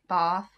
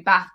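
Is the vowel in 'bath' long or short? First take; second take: long; short. First: It is said in a southern English accent. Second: It is said in a northern English accent. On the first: "It's because we're both from the south of England" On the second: "But if we were from the north, it would be"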